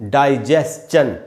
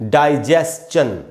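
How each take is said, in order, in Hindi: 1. अंत schun है, इसमें s-ch की आवाज़ है। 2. अंत schun है, इसमें s-ch की आवाज़ है।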